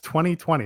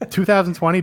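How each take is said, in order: First: The year is said with fewer syllables. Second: The year is said with more syllables. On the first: The speaker calls it right. "You're saving a syllable" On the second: The speaker calls it wrong. "don't say that"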